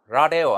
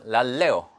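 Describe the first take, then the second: First: The l sound is short and single. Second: The l sound is held and doubled. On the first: The speaker calls it wrong. "라레오 아니고" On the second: The speaker calls it right. "랄레오 이렇게 기억을 해두시고"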